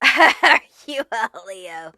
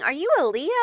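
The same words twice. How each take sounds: First: Slow, laughing repeat of the question. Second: Said in the usual way. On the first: Shown as a demonstration. A reader repeating her question to the viewer, slowly and laughing. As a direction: laugh through it, drawing it out.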